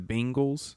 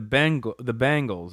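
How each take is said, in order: First: The first vowel sounds like 'bin'. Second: The first vowel sounds like 'ben'. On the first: The speaker calls it wrong. "Like it's spelled B-I-N-G" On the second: The speaker calls it right. "No, it's B-E-N-G"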